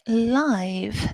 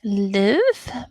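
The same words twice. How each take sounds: First: The vowel is a long 'eye' sound. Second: The vowel is a short 'i' sound. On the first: It describes a performance happening in real time. "as in an adjective for kind of music" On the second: It means to be alive or reside. "the verb ... it was the short I"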